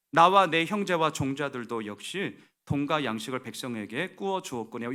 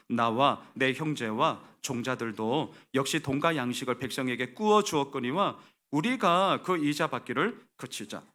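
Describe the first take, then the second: First: "주었거니와" ends it, then pause; break after 주었거니와. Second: No full stop after "주었거니와", voice kept up; "주었거니와 우리가" joined as one continuing sentence; run-on verse reading. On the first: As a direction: stop firmly after "주었거니와", voice dropping. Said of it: "여기서 끊으셔야 돼요". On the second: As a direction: read straight from "꾸어 주었거니와" into "우리가". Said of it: "끊어서 읽으셔야 됩니다". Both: Shown as a demonstration.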